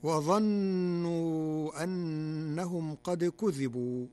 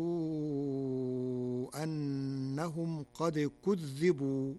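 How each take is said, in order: First: كذبوا with a light dhal, kudhibu; slow recitation with كذبوا unstressed dhal; standard reading. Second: كذبوا with a doubled dhal, kudhdhibu; slow Warsh recitation of كذبوا with shadda; Warsh reading. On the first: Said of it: "قرأ ورش كلمة". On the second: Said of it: "بتشديد الذال". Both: Shown as a demonstration.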